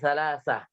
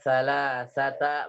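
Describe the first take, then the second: First: The word ends with a stopped h sound. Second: The word ends with a lengthened a vowel. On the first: The speaker calls it right. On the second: The speaker calls it wrong.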